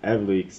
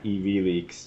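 First: The first part sounds like 'Ev' in Evan. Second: The first part does not sound like Evan. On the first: The name comes from the first name Evan. The speaker calls it right. "that's EvLeaks" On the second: The name is assumed to echo WikiLeaks. The speaker calls it wrong. "not EvLeaks. I know that people often make that mistake"

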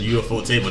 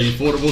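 First: It is said as separate parts, U-F-O table. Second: It is said as one blended word. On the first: "I can't not pronounce it UFO table now" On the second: "I always say Euphorable because I hate saying words that are broken up"

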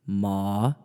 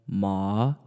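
First: The pitch dips low and rises slightly. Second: The pitch dips low and rises slightly.

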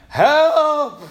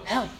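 First: It is said loudly. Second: It is said quietly.

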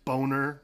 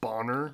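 First: The vowel sounds like the one in bone. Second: The vowel sounds like the one in bonnet. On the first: The speaker calls it right. "it's Boner" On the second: The speaker calls it wrong. "not Bonner"

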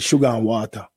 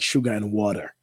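First: It is said in a broad Jamaican accent. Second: It is said in a careful, standard accent. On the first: "So we kind of break words like that" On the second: "We don't say it nice like sugar and water"

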